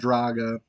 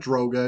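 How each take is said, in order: First: It is one word with an a vowel. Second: It is one word with an o vowel. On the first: "it's not Draga" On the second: "It's not Droga"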